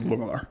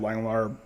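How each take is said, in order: First: The name is said with a Dutch pronunciation. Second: The name is said with an English pronunciation. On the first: "the Dutch pronunciation is Lungelar" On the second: "it's the anglicized version"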